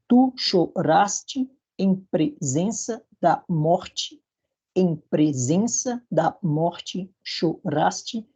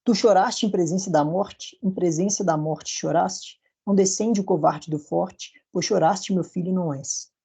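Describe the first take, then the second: First: Very slow, syllable by syllable, strong beats stressed; stressed syllables marked. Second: Slow, measured recital of verse; poem recital. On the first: Teacher scanning the verse very slowly to show stresses. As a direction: spell out the rhythm, pounding each strong syllable. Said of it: "em branco, sílabas fracas, em vermelho, sílabas fortes". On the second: Teacher reciting Gonçalves Dias verses, slow and measured. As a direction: read the lines slowly, letting the rhythm carry. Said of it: "eu trouxe aqui esses quatro versos". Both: Shown as a demonstration.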